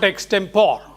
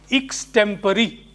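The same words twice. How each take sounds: First: The word is said in the rejected pronunciation. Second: The word is said in the accepted pronunciation. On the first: The speaker calls it wrong. "It's not extempore" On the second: The speaker calls it right. "It should be pronounced as extempore"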